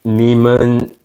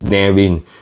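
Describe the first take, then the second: First: The middle consonant is an M sound. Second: The middle consonant is a V sound. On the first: The speaker calls it wrong. "some call it Neiman" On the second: The speaker calls it right. "The correct pronunciation is Nevin"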